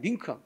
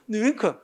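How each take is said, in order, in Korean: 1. 첫 모음은 하나의 i 소리예요. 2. 첫 모음은 두 모음 소리로 이어져요. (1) "닝큼만 인정해" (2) "이렇게 하는 사람 없더라는 게"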